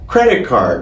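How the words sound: The stress is on the first word. The speaker calls it right. "a gente vai sempre dar ênfase no primeiro substantivo, no credit, e nem tanto no card"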